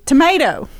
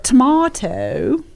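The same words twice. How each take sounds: First: "tomato" with an "ay": to-MAY-to; American "tomato", middle vowel rhymes with day; American pronunciation. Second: "tomato" with a broad "ah": to-MAH-to; British "tomato", long open middle vowel; British pronunciation. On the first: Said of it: "a full-on American". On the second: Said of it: "I learned that tomato". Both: Shown as a demonstration.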